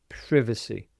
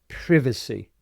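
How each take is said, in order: The two takes are said the same way.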